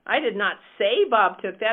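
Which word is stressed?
say. The stress is on "say".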